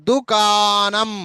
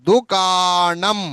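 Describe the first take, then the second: No difference in how they are said.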